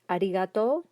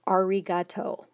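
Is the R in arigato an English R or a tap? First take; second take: tapped; English R. First: The R is a quick tongue tap. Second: The R is an English R sound.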